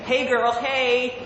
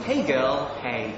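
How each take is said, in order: First: High, sassy American accent. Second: Said in the usual way. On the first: Shown as a demonstration. Brit trying American catchphrase, high American accent. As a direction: sing out a sassy American greeting. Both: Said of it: "my best American accent".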